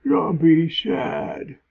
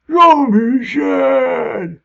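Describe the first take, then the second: First: Sad zombie voice. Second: High, loud, slow zombie wail. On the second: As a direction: howl it like a heartbroken undead. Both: Pretend. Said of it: "Zombie voices".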